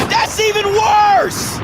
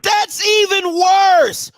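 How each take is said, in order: First: Slow, raised, outraged repeat; incredulous outrage, slowed right down. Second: Even slower, raised outraged repeat; slowest, most outraged take. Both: Real, not acted. Outraged repetition.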